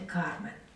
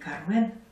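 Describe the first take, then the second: First: The stress is on the first syllable. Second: The stress is on the second syllable. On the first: This is how it is said in Spain. "в Испании ударение на первом" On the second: This is the usual way in Russia. "У нас принято говорить"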